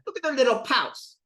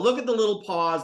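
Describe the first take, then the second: First: The last word ends with a voiceless s sound. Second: The last word ends with a voiced z sound.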